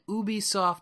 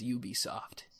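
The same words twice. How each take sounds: First: The name is pronounced in a French style. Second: The name is pronounced in an English style. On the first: "like the French Canadian way to say it" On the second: "everybody else says Ubisoft"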